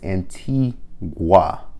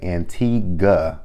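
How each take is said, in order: First: The word ends with a clear 'gwa' sound. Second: The word ends without a 'gwa' sound. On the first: This is the correct way to say it. The speaker calls it right. "there is a G U A at the end of it" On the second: This is how others say it. The speaker calls it wrong. "they say Antigua"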